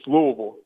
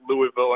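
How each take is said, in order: First: The name is swallowed in the throat. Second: The name is pronounced fully and clearly. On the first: A local is saying it. The speaker calls it right. "that like gargle in the back of my throat" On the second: An outsider is saying it. The speaker calls it wrong. "a Yankee to come down here and pronounce it Louisville"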